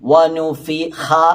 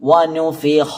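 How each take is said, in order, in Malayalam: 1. വായ തുറന്ന് പറയുന്നു, ശബ്ദം നേരിയതാണ്. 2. വായ വട്ടത്തിൽ പിടിച്ച് പറയുന്നു, ശബ്ദം ഘനമാണ്. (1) "ഓപ്പൺ ചെയ്ത് പറയാതെ" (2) "വായ മൂടിയിട്ട് തന്നെ പറയണം"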